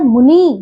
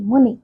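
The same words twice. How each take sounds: First: मुनि said as "munee"; wrong long ending. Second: मुनि with a short final i; correct short ending. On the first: Teacher showing pupils the error, मुनि with long ee. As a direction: stretch the final vowel of मुनि. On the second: Teacher correcting pupils, मुनि with short i. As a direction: keep the last vowel of मुनि brief. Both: Shown as a demonstration. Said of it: "मुनि नहीं".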